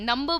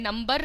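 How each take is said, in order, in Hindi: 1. आख़िरी R की आवाज़ नरम और हल्की है। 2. आख़िरी R की आवाज़ तेज़ और भारी है। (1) "नंबर बोला है मैंने" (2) "नंबर नहीं बोला है"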